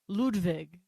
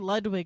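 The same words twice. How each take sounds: First: The name is said with a strong German accent. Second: The name is said with a plain English accent. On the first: Staff recognise the reservation name. The speaker calls it right. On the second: Staff do not recognise the reservation name. The speaker calls it wrong.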